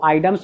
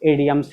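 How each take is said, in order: First: The word begins with an 'eye' sound. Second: The word begins with an 'ih' sound. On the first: The speaker calls it wrong. "इसको आइडम्स भी बोला जाता है" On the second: The speaker calls it right. "इसका right pronunciation आइडम्स नहीं होकर के इडियम्स ही है"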